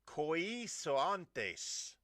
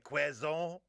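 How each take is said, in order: First: It is read out letter by letter as spelled. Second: It is said French-style with a kw sound. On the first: "if you looked at the letters that are in front of you" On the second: "the French pronounce it with a K W"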